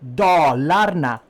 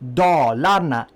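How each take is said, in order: First: It is said with a native Swedish pronunciation. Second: It is said with an English-style pronunciation. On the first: The speaker calls it right. "That's the right word, not anything else" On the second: The speaker calls it wrong. "it's wrong"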